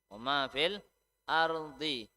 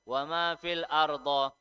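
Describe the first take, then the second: First: The last word ends with an 'ee' vowel. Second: The last word ends with an 'oh' vowel. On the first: The speaker calls it right. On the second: The speaker calls it wrong.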